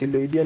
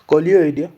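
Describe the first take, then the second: First: The word begins with an S sound. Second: The word begins with a K sound. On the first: The speaker calls it wrong. "सिलोइडिया नहीं" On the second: The speaker calls it right. "इसका pronounce करते हैं कोलियोइडिया"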